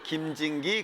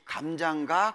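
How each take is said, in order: First: The vowels are pronounced as 'i' sounds. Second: The vowels are pronounced as 'a' sounds. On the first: The speaker calls it wrong. "아 발음을 못한다 그랬잖아요" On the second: The speaker calls it right. "그러면서 한 말이 감장가?"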